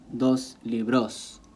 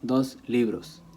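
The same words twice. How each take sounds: First: The stress in libros is on the last syllable. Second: The stress in libros is on the first syllable. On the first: The speaker calls it wrong. "they'll put the stress toward the S and they end up mispronouncing the word" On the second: The speaker calls it right. "It just falls on the on the li"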